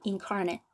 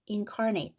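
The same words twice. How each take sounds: First: The final syllable is weak, like 'nit'. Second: The final syllable is full, like 'nate'. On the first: It is used as an adjective after a noun. "이게 형용사일 경우에는 발음이 incarnate" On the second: It is used as a verb meaning to give a body. "여기를 ate 이렇게 발음했을 경우에"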